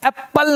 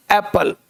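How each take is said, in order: First: First एप्पल as "ap-pal", both p's; geminated एप्पल; doubled consonant. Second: Second एप्पल as "ae-pal", one p; undoubled एप्पल; single consonant. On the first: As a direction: hold the p in एप्पल. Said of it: "break करने का". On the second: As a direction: say एप्पल with no doubled p. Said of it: "नहीं". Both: Shown as a demonstration.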